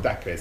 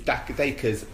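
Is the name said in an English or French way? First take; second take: French; English. First: The name is said in a French-sounding way. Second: The name is said in a plain English way. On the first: The speaker calls it wrong. "not French" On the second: The speaker calls it right. "He's Jamaican, not French. It's Dacres"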